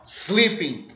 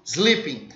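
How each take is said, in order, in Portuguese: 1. A palavra começa direto com um s sibilante. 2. A palavra começa direto com um s sibilante.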